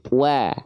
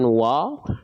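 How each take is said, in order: First: The vowel is thin and open, like a. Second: The vowel is thick and rounded, toward o. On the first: The speaker calls it right. "ingat tipis" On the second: The speaker calls it wrong.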